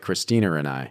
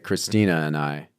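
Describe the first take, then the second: First: An R sound is added after Christina. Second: No R sound is added after Christina.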